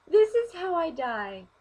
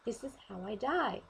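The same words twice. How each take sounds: First: High, loud, slow mock despair; dramatic wail. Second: Said in the usual way. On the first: To herself on fire, mock wailing. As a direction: wail it as if doomed. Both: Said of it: "and I'm like".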